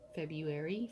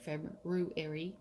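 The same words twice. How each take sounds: First: The first r sound is dropped. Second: The first r sound is clearly pronounced.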